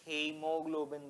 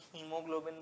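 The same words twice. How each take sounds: First: The first vowel follows the spelled 'ae' sound. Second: The first vowel is a plain 'ee' sound. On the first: It is said this way to help recall the spelling. "मैं जान के तुम्हारे लिए हीमोग्लोबिन बोल रहा हूँ" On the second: This is how many people usually say it. "वैसे कुछ लोग हीमोग्लोबिन बोल देते हैं"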